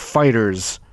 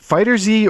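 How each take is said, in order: First: The ending is a plain s sound. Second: The final Z is said as a separate letter.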